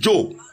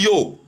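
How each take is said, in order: First: The word begins with a J sound. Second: The word begins with a Y sound. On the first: "la plupart des gens disent Joe. On change l'Y en J" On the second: "on dit yo pour dire je"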